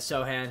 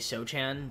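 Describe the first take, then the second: First: The middle consonant sound is left out. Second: The middle consonant sound is clearly pronounced. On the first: "I guess the C is silent" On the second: "which I would say Sochan"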